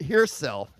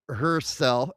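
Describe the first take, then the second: First: First syllable of "herself." sounds like English here; "herself" said as here-self. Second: First syllable of "herself," rhymes with fur; "herself" said as her. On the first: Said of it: "pronounced like the English word here". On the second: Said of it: "don't even know if I'm pronouncing". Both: Real, not acted.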